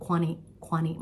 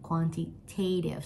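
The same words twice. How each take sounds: First: Quanti- with an American flapped t, not a full ti; American accent. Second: Quantitative with the weight on tative, slowly; stress on tative. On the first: Teacher showing students American quanti-, light American accent. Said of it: "ถ้าพูดแบบเป็นความอเมริกันนิดนึง". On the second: Teacher showing students where the stress falls in Quantitative, slow and deliberate. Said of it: "Stress อยู่ตรงที่ tative". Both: Shown as a demonstration.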